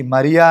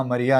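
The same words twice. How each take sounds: First: Name called out louder, rising at the end; calling out a name. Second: Said in the usual way. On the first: Retold or imitated. Jesus calling Mary by name, called out louder. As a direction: call her name across the garden. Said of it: "పిలిచాడు".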